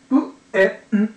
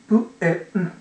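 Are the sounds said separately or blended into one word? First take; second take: separately; separately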